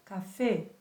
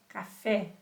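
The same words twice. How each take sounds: First: The final e is a closed vowel. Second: The final e is an open vowel. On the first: The speaker calls it right. "será sempre café" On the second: The speaker calls it wrong. "nós não vamos usar a pronúncia de E"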